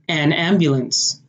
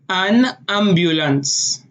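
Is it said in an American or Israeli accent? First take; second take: American; Israeli. First: It is said in an American accent. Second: It is said in an Israeli accent.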